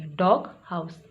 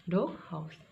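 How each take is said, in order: First: Slow डॉग हाउस with G and H both sounded; both sounds clear. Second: Said in the usual way. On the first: Shown as a demonstration. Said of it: "अब इन दोनों के sound आएंगे". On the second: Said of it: "समझाने के लिए अलग-अलग करके रखा है".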